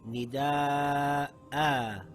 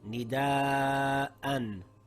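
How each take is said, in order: First: The word ends on a long a vowel. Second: The word ends with an -an sound. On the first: The reading stops on this word. "Now we read it as nida'a" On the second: The reading continues without stopping. "The word reads nida'an"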